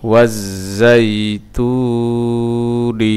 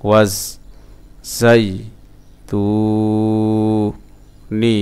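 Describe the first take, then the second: First: ওয়াজ জাই তু নি linked in one chant; sung, run the syllables on, keeping তু long; sung, joined-up recitation. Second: ওয়াজ, জাই, তু, নি each separated; broken-up syllables. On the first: Teacher joining the word for learners, measured chant. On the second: Teacher sounding out a word for learners, syllable by syllable. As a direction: pause after each, holding তু. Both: Shown as a demonstration. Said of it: "ভাঙা ভাঙা উচ্চারণ".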